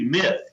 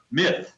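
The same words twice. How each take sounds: First: Said in the usual way. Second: "myth" set apart by pauses, slightly raised; emphasis on "myth". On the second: Real, not acted. Analyst underlining the word for the interviewer, "myth" stressed on its own. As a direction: say "myth" as a pointed, standalone word. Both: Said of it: "let me emphasize that word".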